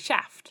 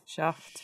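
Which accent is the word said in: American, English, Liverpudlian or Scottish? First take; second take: American; Scottish. First: The word is said in an American accent. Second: The word is said in a Scottish accent. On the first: "Whereas in America, he's Shaft" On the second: "if you're Scottish or something, you'll say Shaft"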